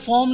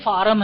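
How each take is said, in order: First: The vowel is a rounded 'aw' sound. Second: The vowel is an open 'ah' sound. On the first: The speaker calls it right. "इसको फॉर्म बोला जाता है" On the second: The speaker calls it wrong. "हम लोग बोलते थे कि भाई फार्म"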